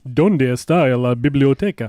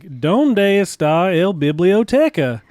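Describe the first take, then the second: First: It is said like a Spanish TV announcer. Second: It is said with an American accent.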